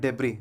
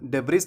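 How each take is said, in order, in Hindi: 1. यह शब्द बिना s वाले स्वर पर खत्म होता है। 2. यह शब्द एक साफ़ s ध्वनि पर खत्म होता है। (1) "यहाँ पर एस साइलेंट होता है" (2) "इसका सही उच्चारण डेब्रिस नहीं"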